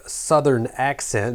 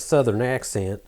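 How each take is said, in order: First: Said in the usual way. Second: Southern accent. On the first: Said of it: "it is not here because I said". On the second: Shown as a demonstration. Vlogger showing viewers the accent he lost, Southern accent. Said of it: "I said southern accent instead of".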